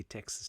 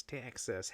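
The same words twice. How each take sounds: First: Said in the usual way. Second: Mock Texan accent on Texas. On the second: Shown as a demonstration. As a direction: say Texas with a put-on Southern twang. Repeats state name in mock accent.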